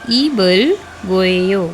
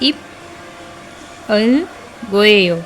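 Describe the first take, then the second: First: A B sound, linked into the following vowel. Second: A P sound, separated from the following vowel. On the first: The speaker calls it right. "हमें प्रोनाउंस करना है" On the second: The speaker calls it wrong. "इसे नहीं प्रोनाउंस करना"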